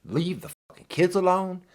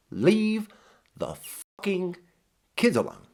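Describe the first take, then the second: First: Said in the usual way. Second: Put-on each word of "Leave the fucking kids alone" hit separately with pauses between, "Leave" pitched higher; word by word emphasis. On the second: Shown as a demonstration.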